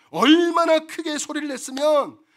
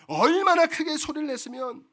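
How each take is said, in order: First: Slow and louder, stress on 얼마나; 얼마나 drawn out and loud; emphatic build. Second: Said in the usual way. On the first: Acted. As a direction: lean hard into 얼마나. Repeated for emphasis.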